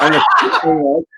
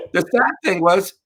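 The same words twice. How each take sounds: First: High and loud through laughter; cracking up mid-sentence; laughing. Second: Said in the usual way. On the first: Real, not acted. Telling the hosts the punchline, laughing hard.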